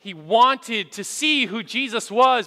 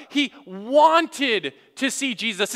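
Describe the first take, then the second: First: Said in the usual way. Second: Slow, leaning hard on "wanted"; stress on wanted. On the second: Shown as a demonstration. Preacher to congregation, spelling out the key word with slow stress on "wanted". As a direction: drag out and punch "wanted" so the verb lands. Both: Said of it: "I want you to read with me the second word".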